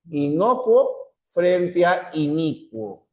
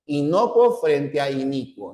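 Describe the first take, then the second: First: Inocuo and inicuo said slowly, each vowel marked; slow down to set inocuo against inicuo; slow contrasting pronunciation. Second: Said in the usual way. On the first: Shown as a demonstration. (inocuo e inicuo pronunciados despacio) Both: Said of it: "lo que nos interesa es la pronunciación".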